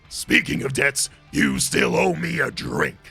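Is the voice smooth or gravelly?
gravelly. The voice has more gravel in it.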